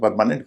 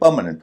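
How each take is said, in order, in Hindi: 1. Stress बाद के किसी अक्षर पर पड़ता है। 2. स्ट्रेस पहले अक्षर पर पड़ता है। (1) "लोग इसे परमानेंट कहते हैं" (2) "शुरुआत के हिस्से पे स्ट्रेस होता है"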